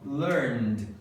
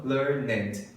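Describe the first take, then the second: First: "learned" as one syllable, plain D closing it; pronúncia correta. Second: "learned" slowly with an added syllable, learn-ED; pronúncia errada. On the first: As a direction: say "learned" with just a D after the N. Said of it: "é a pronúncia correta". ("learned" numa sílaba só, com som de D) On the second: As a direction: split "learned" into two beats, ending in a full "ed". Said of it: "e não learned". ("learned" errado, com sílaba extra: lear-ned) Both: Shown as a demonstration.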